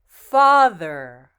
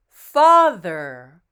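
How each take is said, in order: Both takes have the same delivery.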